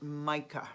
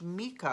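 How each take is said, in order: First: "Micah" said as MY-kah; common pronunciation. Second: "Micah" said as MEE-kah; alternative pronunciation. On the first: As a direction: say "Micah" with a long I, like "my". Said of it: "most people I hear pronounce it". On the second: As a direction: say "Micah" with an EE in the first syllable. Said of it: "I've heard it pronounced". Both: Shown as a demonstration.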